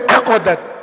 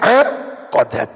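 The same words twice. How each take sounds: First: The first vowel is kept short. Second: The first vowel is drawn out long. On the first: "tanpa alif" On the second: "kalau memakai alif"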